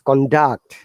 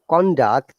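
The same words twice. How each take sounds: First: The pitch goes from low to high. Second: The pitch goes from high to low. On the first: It is used as a verb. "lower to upper intonation, then it becomes a verb. So it is conduct" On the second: It is used as a noun. "When it is upper to lower intonation, conduct, then it is a noun"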